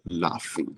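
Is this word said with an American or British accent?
British. It is said in a British accent. "I think the British say"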